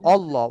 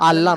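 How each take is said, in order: First: The first vowel is a rounded 'o' sound. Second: The first vowel is an open 'a' sound. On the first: The speaker calls it right. "অবের সঙ্গে লাম ধরবেন" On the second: The speaker calls it wrong. "আল্লাহ নয়"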